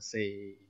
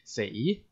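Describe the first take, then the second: First: The pitch stays level through the syllable. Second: The pitch rises through the syllable. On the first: It means four. "but this one is a flat tone" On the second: It means to die. "If you pronounce it in a rising tone, then it will become to die"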